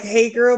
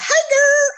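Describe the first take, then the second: First: Said in the usual way. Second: High-pitched country twang. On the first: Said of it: "but you're adding". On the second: Shown as a demonstration. Host showing co-host what she's adding, country twang. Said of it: "a little country twang to it".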